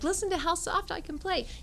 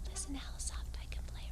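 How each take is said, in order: First: It is said at a louder volume. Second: It is said very quietly.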